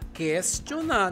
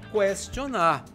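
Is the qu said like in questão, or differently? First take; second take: like questão; differently. First: The qu sounds as it does in questão. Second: The qu sounds unlike it does in questão. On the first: The speaker calls it right. "Se pronunciamos questão, devemos pronunciar questionar" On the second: The speaker calls it wrong. "não questionar"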